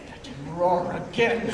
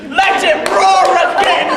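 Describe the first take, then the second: First: Said in the usual way. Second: Louder and higher, bold call; loud cheer. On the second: Retold or imitated. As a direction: shout it out like a demand. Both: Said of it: "make the Duke say".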